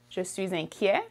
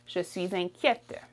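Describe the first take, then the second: First: "inquiet" ending on the vowel, silent t; masculine French form. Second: "inquiète" with a released t at the end; feminine French form. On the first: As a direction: leave the final t off "inquiet". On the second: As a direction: sound the final t in "inquiète". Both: Shown as a demonstration. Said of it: "For feminine, you would say".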